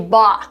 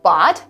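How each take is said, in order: First: It ends with a glottal stop. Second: It ends with a clearly released T. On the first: "This is called glottal stop" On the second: "instead of saying bought"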